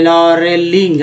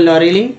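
First: लॉरेलिंग drawn out in parts; careful stretched लॉरेलिंग; slow word demo. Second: Said in the usual way. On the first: Shown as a demonstration. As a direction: sound out लॉरेलिंग slowly. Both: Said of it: "इस तरह से आप पढ़ना सीख".

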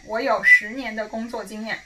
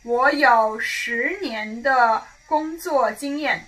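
First: Said in the usual way. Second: Slow model sentence. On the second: Shown as a demonstration. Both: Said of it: "So say".

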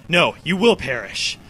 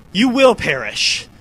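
First: Said in the usual way. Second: Slow, loud menacing read; dramatic villain line. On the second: Pretend. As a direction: boom it like a villain. Reading boss line dramatically.

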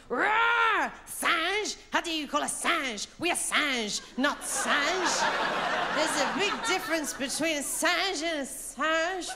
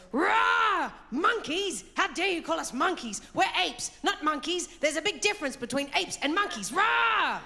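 First: High, indignant gorilla with a roar; big gorilla. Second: High, loud indignant gorilla with roars; roar, then protest in high-pitched outrage; big gorilla. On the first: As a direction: protest in high-pitched mock outrage. Gorilla scene replayed with French word. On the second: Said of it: "the big gorilla goes". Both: Retold or imitated.

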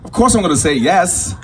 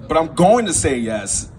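First: Said in the usual way. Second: Slow, leaning on "going"; stress on "going". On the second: Acted. Son hedging his answer to mom, "going" drawn out. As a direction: stretch out "going" before a reluctant yes.

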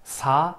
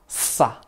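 First: "sa" with a light, relaxed s; plain normal SA. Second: "sa" with a long hissed, tense s. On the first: Teacher showing students the normal sound, soft-s sa. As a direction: say sa easily, vowel lifted. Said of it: "piensa que sa normal". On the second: Teacher showing students that sound, tense hissed sa. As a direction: hold the s, then a short tight a. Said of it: "más fuerte". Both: Shown as a demonstration.

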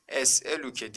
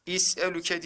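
First: "Es'eluke" starting with E; correct reading. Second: "İs'eluke" starting with I instead of E; wrong reading. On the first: Teacher confirms for students the correct reading. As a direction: open "Es'eluke" on E, not I. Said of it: "diye okuduk". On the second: Teacher quizzes students with a wrong reading. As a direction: swap the first vowel to I in "İs'eluke". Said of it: "diye okuduk mu?". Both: Shown as a demonstration.

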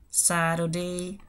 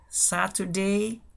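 First: "Saturday" as "sa-ro-day", t turned into a tap; variant pronunciation. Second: "Saturday" as "sa-tu-day", crisp t, no r; variant pronunciation. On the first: Teacher giving learners a second pronunciation, "Saturday" with tapped t. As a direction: say "Saturday" very slowly with a tapped middle. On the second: Teacher giving learners one pronunciation, "Saturday" with crisp t. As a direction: say "Saturday" very slowly with a clear t. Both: Shown as a demonstration. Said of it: "se pueden decir de diferentes maneras".

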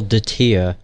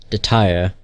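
First: "Datir" with an "eer" ending; "Datir", second syllable rhyming with "ear"; game's pronunciation. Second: "Datire" with an "ire" ending; "Datire", second syllable rhyming with "fire"; old mispronunciation. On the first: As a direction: say "Datir" as da-TEER. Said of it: "They pronounce things really weirdly". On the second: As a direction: say "Datire" as da-TIRE. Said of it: "I used to call". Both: Shown as a demonstration.

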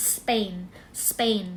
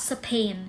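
First: Spain with P unaspirated, like Thai ป; a hard, puffless P after the S in "Spain". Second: Spain with a puffed, aspirated P after the S. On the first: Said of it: "มันจะออกเป็นเสียง เป". (ออกเสียง Spain เป็น สเปน ด้วยเสียง ป) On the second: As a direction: say "Spain" wrongly as sa-pain with a breathy P. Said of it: "ตัว P มันไม่ออกว่า". (ออกเสียง Spain ผิดเป็น สะ-เพน) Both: Shown as a demonstration.

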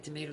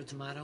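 First: "tomato" with AY in the middle; long-A tomato. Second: "tomato" with AH in the middle; broad-A tomato. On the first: Comparing two ways to say it, "tomato" as "tuh-MAY-toh". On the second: Comparing two ways to say it, "tomato" as "tuh-MAH-toh". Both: Shown as a demonstration. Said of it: "It's like tomato".

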